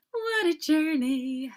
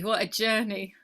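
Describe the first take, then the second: First: Slow, louder, higher marvelling repeat; drawn-out exclamation. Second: Said in the usual way. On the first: Real, not acted. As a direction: savour the words, amazed at life. Repeats phrase with growing emphasis.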